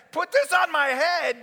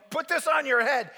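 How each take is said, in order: First: High, loud, slow outburst; acted exasperated shout; incredulous echo. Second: Raised, firm instruction; acted insistent directive; bossy order. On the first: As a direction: throw the order back in outrage. Patient throws order back. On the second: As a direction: command it like a pushy nurse.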